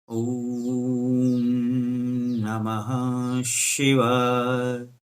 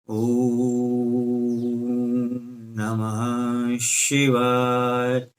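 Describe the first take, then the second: The two takes are said the same way.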